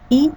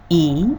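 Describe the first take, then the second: First: The vowel is short. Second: The vowel is held twice as long.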